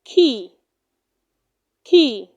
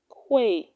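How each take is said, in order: First: Key, the sound of quay, said "kee"; correct pronunciation. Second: Quay said as "kway"; wrong pronunciation. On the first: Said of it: "It is pronounced". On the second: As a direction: say quay with a kw, rhyming with way. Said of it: "do not say quay". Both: Shown as a demonstration.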